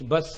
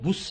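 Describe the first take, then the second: First: The vowel is an open 'a' sound. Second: The vowel is a rounded 'u' sound. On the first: The speaker calls it right. "బియుఎస్ బస్ అనాలి" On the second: The speaker calls it wrong. "బుస్ అనొచ్చా అండి అంటే అనకూడదు"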